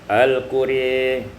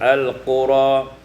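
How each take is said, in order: First: The final vowel leans toward 'e'. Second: The final vowel is an open 'a'.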